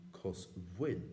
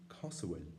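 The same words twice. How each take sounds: First: Cosúil with a w sound in the middle; Munster pronunciation. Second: Cosúil as Ulster speakers say it; Ulster pronunciation. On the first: Teacher showing how Munster speakers say it. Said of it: "you can still find the pronunciation". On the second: Teacher showing how Ulster speakers say it. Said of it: "you will find often the pronunciation". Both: Shown as a demonstration.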